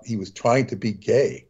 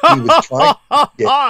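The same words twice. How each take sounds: First: Said in the usual way. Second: High, loud, camp put-on voice; mocking voice. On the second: Repeating the cartoon's joke to the host for laughs, in a high camp mock voice. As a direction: ham it up as a mocking caricature.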